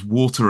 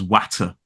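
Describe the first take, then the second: First: Said in the usual way. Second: "watter" with a short flat a, as in hat; regional vowel. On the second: Shown as a demonstration. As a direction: say "watter", rhyming with batter. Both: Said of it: "pronounce water as watter".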